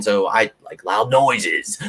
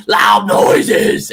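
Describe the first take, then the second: First: Said in the usual way. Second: Loud, high metal-band yell; shouted. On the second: Shown as a demonstration. Ex-metal singer shows fans his love of noise, yelling.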